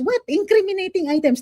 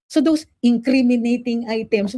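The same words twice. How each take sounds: First: What thrown out much higher, incredulous; scoffing stress on what. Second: Said in the usual way. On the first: Real, not acted. Vlogger mocking the police claim with a stressed what. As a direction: hit the word what in disbelief. Scoffing echo of "incriminating items.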